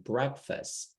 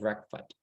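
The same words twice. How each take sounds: First: An s sound comes before the final t. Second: No s sound comes before the final t. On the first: The speaker calls it right. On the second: The speaker calls it wrong.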